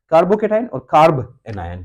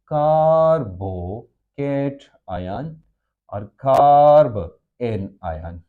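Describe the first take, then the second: First: The parts of each term are run together. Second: The parts of each term are said separately.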